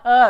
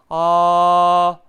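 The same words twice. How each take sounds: First: The vowel is raised with the tongue pushed up. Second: The vowel is fully open with the tongue low. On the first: The speaker calls it wrong. "이렇게 억지로 혀를 올리면 안 되는 거" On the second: The speaker calls it right. "아 하면은 혀가 밑으로 딱 깔린단 말이야"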